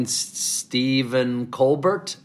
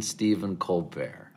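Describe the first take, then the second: First: "Stephen Colbert" with a hard final t, Col-burt; old pronunciation. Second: "Stephen Colbert" with a silent t, Col-bear; new French pronunciation. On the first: Before the flight he still says "Colbert" as Col-burt. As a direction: say "Colbert" the American way, ending in a clear t. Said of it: "I got on the plane". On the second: After the flight he unveils the French "Colbert", Col-bear. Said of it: "and I got off the plane". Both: Shown as a demonstration.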